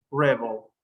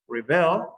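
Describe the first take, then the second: First: Rebel as REB-el, falling away after the start; stress on first syllable. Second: Rebel as re-BEL, rising on the end; stress on second syllable. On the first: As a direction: hit the first syllable of rebel, let the end drop. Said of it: "at the beginning". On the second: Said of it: "the first one is at the end". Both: Shown as a demonstration.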